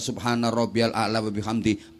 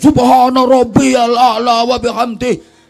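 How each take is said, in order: First: The phrase is said softly and gently. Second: The phrase is said loudly and forcefully. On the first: A quiet whisper is enough to shake the sky. The speaker calls it right. "pelan-pelan aja" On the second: Reciting loudly would break the sky. The speaker calls it wrong. "Oleh maca mubater"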